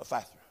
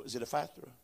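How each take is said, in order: First: Ephatha rattled off in one quick breath; said real fast. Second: Said in the usual way. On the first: Shown as a demonstration. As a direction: spit Ephatha out fast so nobody can trip on it. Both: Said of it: "Say it real fast".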